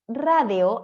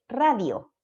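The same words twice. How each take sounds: First: "radio" said slowly as "rá-de-o"; ultracorrected vowel. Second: Said in the usual way. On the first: Shown as a demonstration. Teacher shows a classic overcorrection, "radio" pronounced "radeo". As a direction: turn the i of "radio" into E. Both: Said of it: "en vez de radio".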